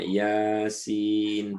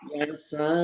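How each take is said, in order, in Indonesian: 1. Kata ini berakhir dengan suku kata 'sin' yang utuh. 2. Kata ini berakhir dengan suku kata 'sa' yang pendek. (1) "orang lain mah Yasin" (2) "dia mah Yasa"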